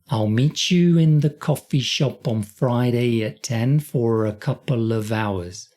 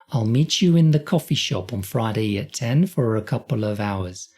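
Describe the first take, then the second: First: The sentence is said slowly. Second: The sentence is said faster.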